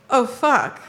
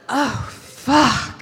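First: It is said with worry and alarm. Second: It is said with pleasure and arousal. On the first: Something has gone wrong. The speaker calls it wrong. "not, oh, fuck. Like, I can tell something's wrong" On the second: Something feels good. The speaker calls it right. "I want to hear, oh, fuck"

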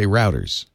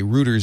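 First: It is said in an American accent. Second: It is said in an English or Australian accent.

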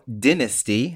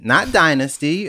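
First: It is pronounced the British way. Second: It is pronounced the American way. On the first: This is how the British actress says it. The speaker calls it right. "how she pronounces her favorite show" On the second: This is how Americans say it. The speaker calls it wrong. "us Americans get a lot of stuff wrong"

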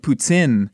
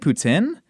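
First: It is said hard, in a Quebec French accent. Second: It is said plainly, in an English accent. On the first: "in Quebec, they pronounce it very hard" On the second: "do I just say poutine?"

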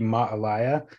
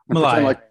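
First: The two a-vowels are sounded out separately. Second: It is said fast with the vowels merged. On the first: "technically it'd be ma'alaya" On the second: "Say it fast"

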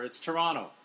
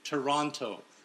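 First: The second T is silent. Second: The second T is clearly pronounced. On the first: This is how locals say it. The speaker calls it right. "A silent T" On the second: This is how outsiders say it. The speaker calls it wrong. "pronounce that second T"

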